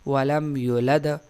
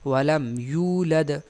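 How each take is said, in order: First: The vowel after the y is short. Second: The vowel after the y is long. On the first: The speaker calls it wrong. "बाज लोग पढ़ते हैं वलम युलद, यानी वाव गिरा देते हैं" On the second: The speaker calls it right. "हालांकि इस तरह नहीं"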